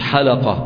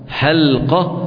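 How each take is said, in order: First: A short vowel follows the L sound. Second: No vowel follows the L sound. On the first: The speaker calls it wrong. "مش حلقة" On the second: The speaker calls it right. "بتسكين اللام"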